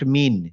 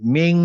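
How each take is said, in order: First: The n is pronounced clearly as a full n. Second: The n is hidden and nasalized through the nose. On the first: The speaker calls it wrong. "Not মিন" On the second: The speaker calls it right. "অনিশ্বরের মতো একটু নাক দিয়ে আসবে"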